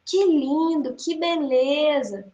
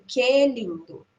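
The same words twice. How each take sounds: First: "Que lindo, que beleza" drawn out in mock praise; ironic. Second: Said in the usual way. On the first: Shown as a demonstration. Teacher demonstrating irony to the class, ironic drawl. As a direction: say it meaning the opposite. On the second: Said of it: "Sem entonação".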